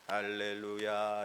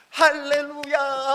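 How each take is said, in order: First: It is said flatly, without much feeling. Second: It is said joyfully, with lively energy. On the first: The speaker calls it wrong. "이렇게 찬양하는 게 아니라" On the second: The speaker calls it right. "뛰듯이 기뻐하는 거예요"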